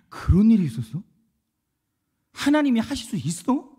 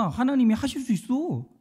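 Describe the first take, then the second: First: Retold wondering question, rising at the end; amazed questioning. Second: Firm retold assurance, higher pitch, falling end; confident assertion. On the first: Listeners reacting to a testimony, amazed questioning. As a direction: ask it as if hearing astonishing news. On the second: Testifier assuring doubters that God can do it, confident. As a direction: assert it as one who has seen it.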